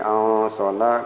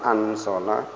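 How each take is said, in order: First: The n sound is hidden before the s. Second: A clear n sound comes before the s. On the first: The speaker calls it right. "tapi a sola" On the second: The speaker calls it wrong. "bukan an sola"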